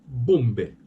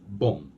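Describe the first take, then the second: First: The final B is pronounced. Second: The final B is not pronounced. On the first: The speaker calls it wrong. "a lot of foreign speakers will say bombe" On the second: The speaker calls it right. "we don't pronounce that B. It's bomb"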